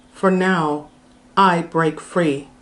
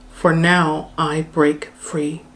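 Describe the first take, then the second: The two takes are said the same way.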